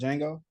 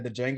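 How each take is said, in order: First: The initial D is silent. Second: The initial D is pronounced separately. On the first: The speaker calls it right. "instead of Django" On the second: The speaker calls it wrong. "you said the Django"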